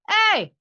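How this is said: The shout is squeezed out with throat pressure. The speaker calls it wrong. "it's different. I'm using pressure here that's that's gonna kill my voice"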